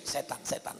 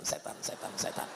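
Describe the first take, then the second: First: Said in the usual way. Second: "setan, setan" fading to a whisper. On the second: Shown as a demonstration. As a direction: hiss "setan" ever softer like a warning.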